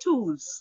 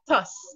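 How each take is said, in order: First: The name is said with a long vowel. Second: The name is said with a short vowel. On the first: This is how it is really said. The speaker calls it right. "it's actually pronounced Toos" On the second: This is how many people say it. The speaker calls it wrong. "Many persons pronounce it as Tus"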